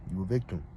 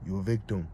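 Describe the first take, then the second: No difference in how they are said.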